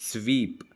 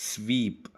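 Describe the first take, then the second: The two takes are said the same way.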